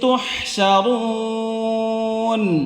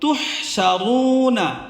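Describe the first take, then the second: First: The word ends on n, with no final vowel. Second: The word ends with a final a vowel. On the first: The reader stops at the end of the verse. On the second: The reading continues without stopping.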